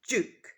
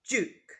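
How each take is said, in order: The two takes are said the same way.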